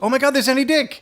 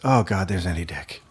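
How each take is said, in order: First: It sounds excited, like a thrilled fan. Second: It sounds dismayed, like dreading the encounter.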